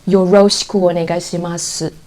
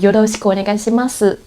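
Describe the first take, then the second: First: It is read with English-style sounds. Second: It is read with Japanese-style sounds. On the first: The speaker calls it wrong. "without knowing how to pronounce them properly" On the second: The speaker calls it right. "you will know"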